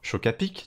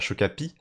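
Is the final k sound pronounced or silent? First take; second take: pronounced; silent. First: The final k sound is pronounced. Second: The final k sound is left silent. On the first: The speaker calls it right. "on dit Chocapic, tu vois, donc on prononce le" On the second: The speaker calls it wrong. "on dit pas Chocapi"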